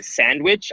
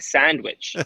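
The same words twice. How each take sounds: First: Said in the usual way. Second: "sandwich" with a soft A; soft, odd A in "sandwich". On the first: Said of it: "instead of saying sandwich". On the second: Shown as a demonstration. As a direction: say "sandwich" with the A softened. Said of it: "soft, like, A thing".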